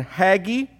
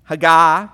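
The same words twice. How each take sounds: First: "Haggai" said as HAG-ee; mispronounced name. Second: "Haggai" as huh-GUY, louder; self-corrected pronunciation. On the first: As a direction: stress the first syllable of "Haggai", ending in ee. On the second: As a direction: punch the second syllable of "Haggai", ending in eye. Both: Real, not acted.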